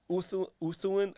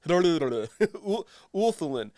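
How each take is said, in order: First: No L sound is pronounced before the th. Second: An L sound is pronounced before the th. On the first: "Is it just Uthulin?" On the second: "Do you even pronounce the L?"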